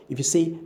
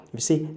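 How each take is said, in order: Both takes have the same delivery.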